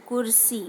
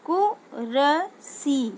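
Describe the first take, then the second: First: Said in the usual way. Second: कुरसी drawn out very slowly; slow syllable-by-syllable reading. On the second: Shown as a demonstration. Teacher slowly sounds out कुरसी for pupils. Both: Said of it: "तो क्या हो जाएगा".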